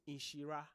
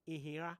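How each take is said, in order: First: The name is said with an 'sh' sound. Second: The name is said without an 'sh' sound. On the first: The speaker calls it right. "My name is" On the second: The speaker calls it wrong. "people will go"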